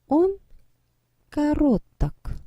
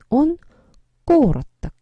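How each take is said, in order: First: The stress is on the second syllable. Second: The stress is on the first syllable. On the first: The speaker calls it wrong. "근데 강세가 이동해야 되겠죠? 뭔가 발음하고 나니까 이상하죠?" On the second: The speaker calls it right. "그럼 강세가 이도, 이동을 합니다. 그래서 꼬르떡 이렇게 돼요"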